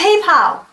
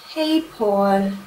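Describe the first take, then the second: First: The last syllable sounds like 'pal'. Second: The last syllable sounds like 'Paul'. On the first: The speaker calls it right. "It's PayPal!" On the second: The speaker calls it wrong. "do you Germans say"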